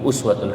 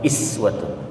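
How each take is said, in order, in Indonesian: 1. Kata itu dimulai dengan vokal 'u'. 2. Kata itu dimulai dengan vokal 'i'. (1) "Uswatun hasanah itu dalam Al-Quran ada begitu" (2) "kemudian juga dibaca iswatun"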